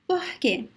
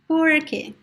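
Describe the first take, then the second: First: The R sounds like a breathy H. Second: The R sounds like an American R. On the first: This is the common accent of Rio and the north. "It can sound like the American uh, H" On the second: This is the accent of inland São Paulo and Paraná. "retroflex R in Portuguese, which is similar to the American R"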